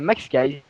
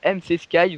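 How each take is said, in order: First: The first part is said as one word, Max. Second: The first part is spelled out as two letters. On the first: This is how the name is meant to be said. The speaker calls it right. "mais non, ça se dit euh, Max Skies" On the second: Most people say the name this way. The speaker calls it wrong. "la plupart des gens ... me disent M C Skies"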